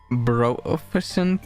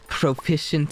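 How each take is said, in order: First: The word begins with a B sound. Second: The word begins with a P sound.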